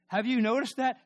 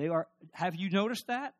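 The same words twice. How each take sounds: First: Higher, louder preaching repeat; emphatic repeat. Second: Said in the usual way. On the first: Acted. Preacher presses the congregation, louder and higher. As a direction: drive the question home, louder.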